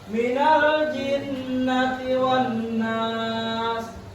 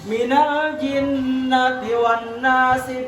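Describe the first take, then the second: First: It stops fully before the next word. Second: It runs straight on into the next word. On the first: The speaker calls it right. "Dengan cara diwa diwakaf" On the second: The speaker calls it wrong. "kenapa ini kada boleh disambung"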